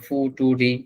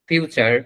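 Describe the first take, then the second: First: The middle sound is t. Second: The middle sound is ch. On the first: The speaker calls it wrong. "ফুটুরি উচ্চারণ করা যেত না?" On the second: The speaker calls it right. "আমরা জানি এই তিনটা শব্দেরই কেমন উচ্চারণ হবে"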